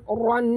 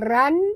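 First: The ra sound is thick and heavy. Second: The ra sound is thin and light. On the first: The speaker calls it right. "tapi kena tebal" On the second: The speaker calls it wrong. "bukan ran"

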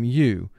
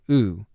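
First: The sound is 'yoo', with a y-glide before the vowel. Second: The sound is 'oo', with no y-glide before the vowel. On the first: It is the letter's first long sound, as in mule. "U is representing its first long sound where it says its name" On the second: It is the letter's second long sound, as in dude. "U is representing its second long sound"

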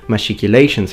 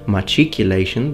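First: The 'ch' is pronounced like 'sh'. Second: The 'ch' is pronounced like 'k'. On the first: "the alternative pronunciation machicolations" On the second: "as opposed to machiculation"

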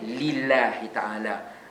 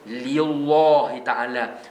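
First: The L of Allah is light and thin. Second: The L of Allah is heavy and thick. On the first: The speaker calls it right. "dia kena nipis, dia tak perlu tebal" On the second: The speaker calls it wrong. "kita tak pernah sebut pun"

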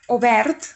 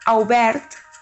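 First: The first vowel sounds like o. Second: The first vowel sounds like au. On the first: The speaker calls it right. "repetiu correctament" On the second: The speaker calls it wrong. "I mai obert"

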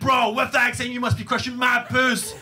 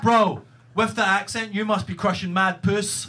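First: The friend's line is said very animatedly. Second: The friend's line is said calmly.

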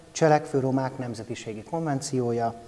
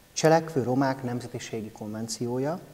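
Both takes have the same delivery.

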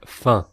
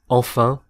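First: Only the second syllable of the word is pronounced. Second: Both syllables of the word are pronounced.

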